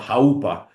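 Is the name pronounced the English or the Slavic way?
Slavic. The name is pronounced the Slavic way. "but we Slavs would say"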